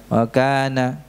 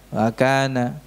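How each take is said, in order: Both takes have the same delivery.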